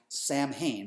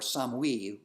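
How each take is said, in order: First: The name is said in an anglicized pronunciation. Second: The name is said in the original Celtic pronunciation.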